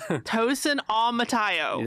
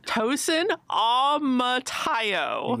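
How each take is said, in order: First: The name is said fast and confidently. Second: The name is said slowly and carefully. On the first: "You gotta say it fast and confident" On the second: "I know I said that slowly"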